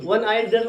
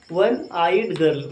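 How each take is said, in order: First: Said in the usual way. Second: Each word drawn out slowly for copying; slow dictation. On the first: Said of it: "मतलब एक आंख वाली लड़की". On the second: Shown as a demonstration. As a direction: spell it out slowly so they can write. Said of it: "क्या लिखा हमने?".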